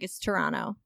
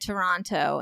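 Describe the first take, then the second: First: The second T is dropped. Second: The second T is clearly pronounced. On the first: The speaker calls it right. "don't say the T" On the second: The speaker calls it wrong. "I said Toronto"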